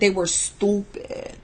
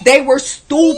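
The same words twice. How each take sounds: First: It is said in a put-on New York accent. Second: It is said in the speaker's ordinary accent.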